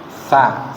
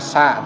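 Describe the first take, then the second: First: The consonant is a th-like sound through the teeth. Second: The consonant is a plain hissing s sound. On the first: The speaker calls it right. "Sa-nya digigit dulu kemudian ditarik ya" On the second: The speaker calls it wrong. "bukan sa"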